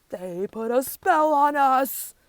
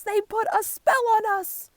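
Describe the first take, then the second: First: Loud, slow accusing cry; outraged cry. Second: High, loud accusing shout; outraged cry. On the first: Animals blaming the warthogs, slow loud cry. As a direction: drag it out, loud and indignant. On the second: Animals blaming the warthogs, loud high cry. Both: A narrator's reading. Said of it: "cry the other animals".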